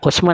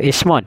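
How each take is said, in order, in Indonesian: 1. Vokal pertama adalah bunyi 'u' bulat. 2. Vokal pertama adalah bunyi 'i' depan. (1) "dibaca dhamma hamjah" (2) "kasrah hamjah"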